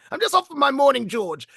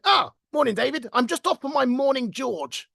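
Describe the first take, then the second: First: Put-on high, swooping old-boy British voice; upper-class naval boss. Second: Put-on high-pitched British old-boy greeting; upper-class naval boss. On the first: Imitating the old boss's phrase for the toilet, upper-class British. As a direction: repeat the boss's catchphrase in his posh voice, pitched up. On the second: Old boss greeting an employee one morning, plummy upper-class British. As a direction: imitate a jovial upper-class ex-Navy officer, pitched up. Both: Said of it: "actually spoke very much like that".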